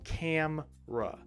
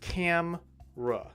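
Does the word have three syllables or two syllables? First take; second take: two; two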